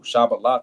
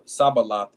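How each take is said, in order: First: The word begins with a 'sh' sound. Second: The word begins with an 's' sound. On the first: The speaker calls it right. "is the correct way to say it" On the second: The speaker calls it wrong. "is just how it, it was said"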